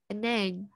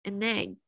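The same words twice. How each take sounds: The two takes are said the same way.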